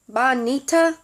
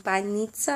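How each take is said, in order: First: Banita with no ts sound, rising like a question; mispronounced banita. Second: Banitsa with the ts clearly sounded, rising; corrected pronunciation. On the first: Retold or imitated. Asking a store worker for pastry: Banita with no ts, questioning. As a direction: Banita with the ts dropped, said louder. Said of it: "the way you're saying it". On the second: Shown as a demonstration. Practising the word her friend taught her: Banitsa with a clear ts. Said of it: "she's been trying to help me pronounce that right".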